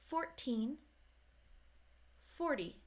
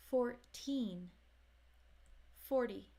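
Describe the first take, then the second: No difference in how they are said.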